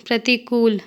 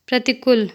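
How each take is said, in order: First: Long oo in "प्रतिकूल"; correct pronunciation. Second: Short u in "प्रतिकूल", like "प्रतिकुल"; incorrect pronunciation. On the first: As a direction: say "प्रतिकूल" with the last vowel held long. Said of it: "शुद्ध शब्द". ("प्रतिकूल" का शुद्ध उच्चारण, लंबा ऊ) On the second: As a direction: say "प्रतिकूल" wrongly with a brief last vowel. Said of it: "अशुद्ध शब्द". ("प्रतिकूल" का अशुद्ध उच्चारण, छोटा उ) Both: Shown as a demonstration.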